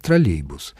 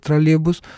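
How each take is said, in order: First: Троллейбус with a clear й, lower; full-style pronunciation. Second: Троллейбус with the й dropped, higher; casual elided pronunciation. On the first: Expert showing the announcer's full style, троллейбус with й sounded. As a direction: say троллейбус fully, keeping the й before "бус". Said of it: "Это полный стиль". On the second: Expert showing what an announcer never says, троллейбус with no й. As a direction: say троллейбус without the й sound, like "тралебус". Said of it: "никогда не скажет". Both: Shown as a demonstration.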